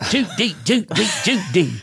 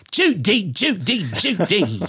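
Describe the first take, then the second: First: High, sing-song Judy Judy Judy; Cary Grant impression for the guest; hacky Cary Grant. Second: High, rising then falling Judy calls; Cary Grant impression explained to the guest; hacky Cary Grant. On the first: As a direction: do a cheesy old Cary Grant bit. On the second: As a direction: toss off a corny Cary Grant. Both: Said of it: "that really hacky Cary Grant impression".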